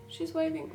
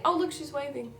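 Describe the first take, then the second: First: High, softer cooing repeat. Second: High cooing pet voice. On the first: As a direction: coo it again, gentler. Baby talk repeated softer. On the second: Baby talk to kitten. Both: Real, not acted.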